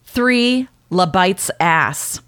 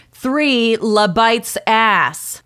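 First: "La Bites ass" said slowly; three "La Bites ass" read out word by word, slowly; misread beer name. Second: "La Bites ass" dragged out slowly, a touch louder. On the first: Woman retelling her bar order, mild misreading. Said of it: "I ordered". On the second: Annoyed at the bartender, slow mock repeat. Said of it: "I repeated slowly and loudly". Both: Retold or imitated.

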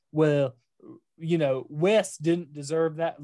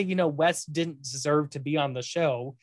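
First: Put-on a touch of Southern accent; mild Southern accent on a quote. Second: Said in the usual way. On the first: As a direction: slip lightly into a Southern accent. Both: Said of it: "Look, I'm doing a Southern accent".

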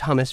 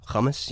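First: Said in the usual way. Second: Hummus said the supposedly proper foreign way; affected foreign pronunciation. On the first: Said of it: "It's hummus for me". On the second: Shown as a demonstration. Showing how you're supposed to say it, affected hummus. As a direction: put on a foreign sound for hummus. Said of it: "supposed to say the roll the R".

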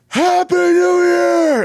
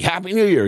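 First: High, long-held shout; loud, stretched-out party scream; celebratory yell. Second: Higher, at talking volume; half-hearted celebratory call; modeled yell. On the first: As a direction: holler it out to the whole street. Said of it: "And I yell". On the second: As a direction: show a kid what to call out. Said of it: "yell. Like". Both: Retold or imitated.

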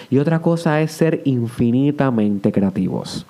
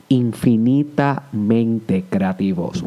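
First: Said in the usual way. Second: "Infinitamente creativos" drawn out very slowly, with weight on "infinitamente"; slow emphatic repeat. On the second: Shown as a demonstration. Host repeating his key phrase to listeners, very slow emphasis. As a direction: savor each word of "Infinitamente creativos". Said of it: "repeated for emphasis".

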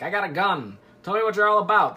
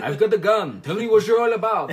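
First: Lightly voiced detective demand; a hint of a character voice, louder toward the end; Poirot. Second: Bad mock French accent, loud; hammed-up French accent with a laugh in it; Poirot. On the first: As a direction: playfully put on a detective's challenge. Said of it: "That's Poirot. He sounds like that". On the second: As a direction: do a poor French accent, loudly. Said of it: "I'm not very good French accent".

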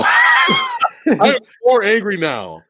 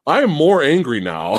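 First: High, slow, drawn-out angry outburst; exaggerated anger. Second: Firm, annoyed declaration; growing anger. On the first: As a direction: cry it out, hammed-up fury. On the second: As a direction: state it with rising irritation. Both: Real, not acted.

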